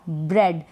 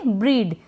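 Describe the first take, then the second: First: The vowel is a short 'eh' sound. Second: The vowel is a long 'ee' sound. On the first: The speaker calls it right. "एकदम correct pronounce कर देंगे, spelling को ब्रेड पढ़ देंगे" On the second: The speaker calls it wrong. "अगर नहीं मालूम होगा तो आप पढ़ेंगे ब्रीड"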